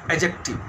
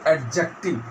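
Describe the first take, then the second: First: "adjective" with the D silent. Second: "adjective" with the D pronounced; D sounded in adjective. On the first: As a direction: say "adjective" as "ajective", no d before the j. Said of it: "D silent". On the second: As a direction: say "adjective" wrongly, sounding the d before the j. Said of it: "we don't pronounce as". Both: Shown as a demonstration.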